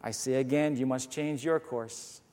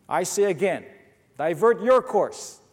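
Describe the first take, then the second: First: Softer and lower, unbothered: I say again, you must change YOUR course; calm, steady answer to an angry captain; calm repeat. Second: A proud captain hammering the order; insistent, commanding repeat; upset captain. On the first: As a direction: keep cool while the other side shouts. Canadian calmly repeats the order. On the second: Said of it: "got a little upset at this". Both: Acted.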